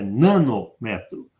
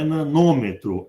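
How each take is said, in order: First: The stress falls on the syllable 'me'. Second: The stress falls on the syllable 'nô'. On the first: The speaker calls it right. "os prefixos têm a, sílaba, a primeira sílaba tônica" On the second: The speaker calls it wrong. "Não é nanômetro"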